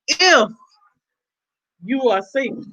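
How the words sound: The word if is strongly stressed.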